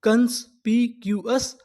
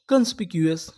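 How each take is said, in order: First: कंस्पिक्यूअस stretched out slowly; slow full word. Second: Said in the usual way. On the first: Shown as a demonstration. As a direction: model कंस्पिक्यूअस slowly for the class. (धीरे-धीरे उच्चारण) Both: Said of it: "तो पूरी meaning".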